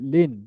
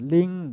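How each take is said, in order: First: The syllable ends with a clear n sound. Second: The syllable ends with a nasal hum instead. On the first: The speaker calls it wrong. "লিন না পড়ে" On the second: The speaker calls it right. "নুনের পরিবর্তে অনিশ্চয় পড়বো"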